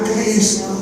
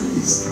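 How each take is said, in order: First: The word is said with a louder voice. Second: The word is said softly, almost whispered. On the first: It is said more openly and strongly. "un poquito más fuerte" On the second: It is said privately, just for oneself. "como nomás en secretito"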